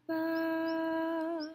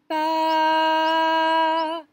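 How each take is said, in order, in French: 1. La syllabe est dite doucement, en douceur. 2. La syllabe est dite à volume de voix normal. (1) "la douceur" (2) "un son moyen, comme quand je parle normalement"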